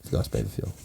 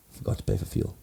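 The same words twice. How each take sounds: First: Deep breathy whisper; low whisper. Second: Breathy whisper of a confession. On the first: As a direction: drop low and hush it. Repeats the punchline. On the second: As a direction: hush it like a guilty secret. Confessing the punchline. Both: Real, not acted.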